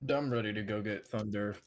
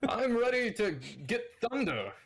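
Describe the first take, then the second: First: It is said in his own natural voice. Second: It is said in a put-on character voice.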